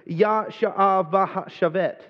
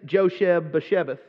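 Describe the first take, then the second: First: The name is said with a Hebrew-style pronunciation. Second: The name is said with a Texan accent.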